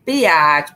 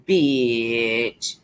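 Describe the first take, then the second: First: "Biatch" stretched into two syllables, bee-atch; drawn-out slang "Biatch". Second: "bitch" short, one syllable, and lower; plain one-syllable "bitch". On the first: Showing viewers how people say it, "Biatch" drawn out as bee-atch. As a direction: say "Biatch" the street way, bee-AHTCH. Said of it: "Ain't that what they say?". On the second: Telling viewers her own way of saying it, a plain short "bitch". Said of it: "I like to say". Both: Shown as a demonstration.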